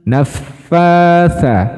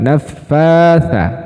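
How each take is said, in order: No difference in how they are said.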